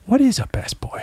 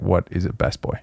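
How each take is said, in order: First: Much higher, mock baffled outsider; puzzled outsider. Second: Soft, puzzled outsider asking. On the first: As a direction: pitch it way up like a baffled stranger. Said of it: "they're like". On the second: Retold or imitated. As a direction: mumble it like a confused outsider. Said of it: "anybody outside the industry is like".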